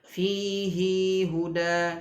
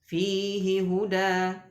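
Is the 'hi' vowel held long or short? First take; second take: long; short. First: The vowel of 'hi' is drawn out long. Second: The vowel of 'hi' is short. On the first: The speaker calls it wrong. "tidak dibaca" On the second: The speaker calls it right. "tapi dibaca pendek hi-nya"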